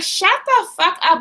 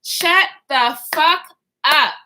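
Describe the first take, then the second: First: Higher-pitched retold yell, not full volume; mock scream. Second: Slow, word-by-word mock scream; retold scream. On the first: Fed-up passenger silencing everyone in the car, mock yell. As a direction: act out yelling with the volume held back. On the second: Reenacting screaming at everyone in the car, slow mock yell. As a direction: draw out each word, pause before the last. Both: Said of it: "I'm screaming at the top of my lungs".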